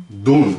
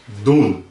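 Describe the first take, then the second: Both takes have the same delivery.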